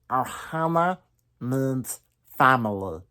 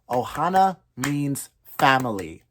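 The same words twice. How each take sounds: First: It is said in a full Stitch impression. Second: It is said with rhythm only, plain voice.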